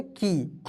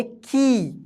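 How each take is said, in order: First: की said simply with a short i; की as a simple short i; simple short vowel. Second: की with the ī stretched out long; की, held long as a long ī; long drawn-out vowel. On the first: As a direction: keep the vowel in की plain and unstretched. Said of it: "simple तरीके से पढ़ते". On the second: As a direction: draw out the vowel in की. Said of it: "उच्चारण खींचकर लंबा होगा". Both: Shown as a demonstration.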